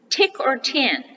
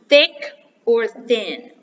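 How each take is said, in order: First: Each word begins with a plain t sound. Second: Each word begins with a soft th sound. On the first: The speaker calls it wrong. "They will say tick or tin. Mm-mm" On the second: The speaker calls it right. "It's thick or thin"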